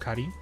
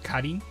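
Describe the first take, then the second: First: The name has a Japanese pronunciation. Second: The same.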